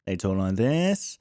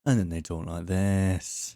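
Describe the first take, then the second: First: Slow, lower anchor read; a mock news reporter read. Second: Slow, lower and grave anchor read; news reporter voice. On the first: Mocking how news reporters talk, slow low anchor voice. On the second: Mocking how news reporters talk, slow low grave anchor voice. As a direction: sink into a serious broadcast tone. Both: Shown as a demonstration. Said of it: "news reporters still speak".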